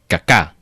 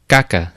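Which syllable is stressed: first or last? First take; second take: last; first. First: The stress is on the last syllable. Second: The stress is on the first syllable. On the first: This is how some other people say it. "Some people say that it's pronounced caca" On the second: This is how the speaker says it. "So the emphasis is on the first"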